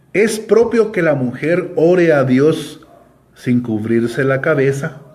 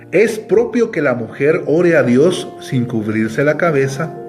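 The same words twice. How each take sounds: No difference in how they are said.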